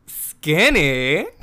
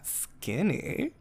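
First: A gleeful, boosted "Skinny?" rising sharply; loud thrilled disbelief. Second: Quiet, higher questioning repeat of "Skinny?"; a hushed, pleased "Skinny?" with a lifted end; soft delighted disbelief. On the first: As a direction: repeat "Skinny?" loudly, delighted. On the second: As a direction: savour the word "Skinny?" softly, rising. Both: Retold or imitated. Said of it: "which I know is really deranged".

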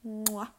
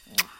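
First: Kiss sound. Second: Close-mic kiss; kiss sound. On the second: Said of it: "go into the mic and do it the precise way". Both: Real, not acted.

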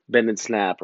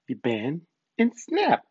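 First: Said in the usual way. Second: Slow, higher, playful catchphrase delivery; teasing film-line imitation with a high snap; movie quote. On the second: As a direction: draw out bend, pause, then pop SNAP up high. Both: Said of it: "Those of you who know the movie".

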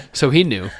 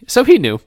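First: Said in the usual way. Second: High, loud, dramatic realization; high exclamation. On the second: A narrator's reading. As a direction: pitch it way up, then drop. Retake, much higher and louder.

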